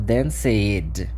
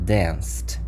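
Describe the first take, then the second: First: The ending is an id syllable. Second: The ending is a plain t sound. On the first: The speaker calls it wrong. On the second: The speaker calls it right.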